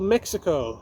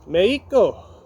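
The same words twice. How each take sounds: First: The word is pronounced the English way. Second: The word is pronounced the Spanish way.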